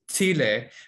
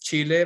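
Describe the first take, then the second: First: The first sound is soft, like 'sh'. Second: The first sound is a plain 'ch'.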